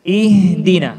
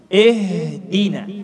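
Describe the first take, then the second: First: "Ihdina" opening on a pure i, as "ee"; clear i vowel. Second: "ihdina" starting with e, as "ehdina". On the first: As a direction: begin Ihdina with a firm, louder i. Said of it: "seperti huruf i". (Ihdina dengan i yang jelas) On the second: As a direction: open the first vowel of ihdina to e. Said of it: "ketika kita membaca seperti ini". (ihdina dibaca dengan bunyi e) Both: Shown as a demonstration.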